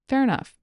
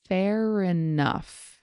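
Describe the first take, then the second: First: The phrase is said at normal conversational speed. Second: The phrase is said slowly and carefully. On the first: "Here it is at normal speed" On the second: "Here it is slowly"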